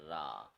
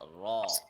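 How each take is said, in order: First: The vowel is a flat, unrounded a. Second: The vowel is an open aw sound. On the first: The speaker calls it wrong. "they don't put the O sound in it" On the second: The speaker calls it right. "the correct one is raw, the aw sound"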